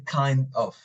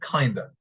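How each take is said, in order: First: Both words are said fully and distinctly. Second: The words are reduced and blended together. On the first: The speaker calls it wrong. "I don't say kind of" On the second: The speaker calls it right. "I say kinda"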